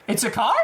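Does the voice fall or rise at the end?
rise. The pitch rises at the end like a question. It sounds like a question. The speaker calls it wrong.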